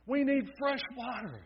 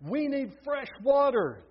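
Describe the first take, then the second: First: High pleading cry for fresh water. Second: Louder, high insistent call for fresh water. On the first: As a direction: beg for water, pitched high. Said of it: "cried out in their weak voices". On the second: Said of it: "they called back". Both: A narrator's reading.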